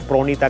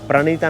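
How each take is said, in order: First: The first vowel sounds like an 'o'. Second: The first vowel sounds like a short 'a'. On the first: This is how the name is said locally in Assam. "प्रोनीता करके बोला जाता है" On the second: This is how the name is written and usually said. "प्रणीता नाम है"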